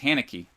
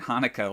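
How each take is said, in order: First: The name sounds like Haneke, not Hanukkah. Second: The name sounds like the holiday Hanukkah. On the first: The speaker calls it right. "but it's Haneke" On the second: The speaker calls it wrong.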